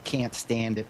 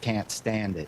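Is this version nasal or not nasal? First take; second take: nasal; not nasal. First: It is said with a strongly nasal voice. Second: It is said without a nasal voice. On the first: "Like they say"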